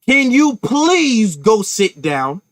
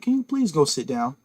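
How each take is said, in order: First: The request is spoken in a sharp, forceful tone. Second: The request is spoken in a calm, even tone. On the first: An angry, confrontational demand. "You would receive a totally different message from me" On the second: A polite, gentle request. "I can say that calmly"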